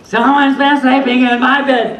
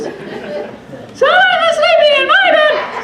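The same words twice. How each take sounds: First: It is said in a medium-pitched voice. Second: It is said in a tiny, high voice.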